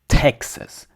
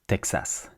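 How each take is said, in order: First: The second vowel is reduced to a schwa. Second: The second vowel is a full A sound. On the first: "So you say Texas because it's ta ta" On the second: "In French, we say Texas"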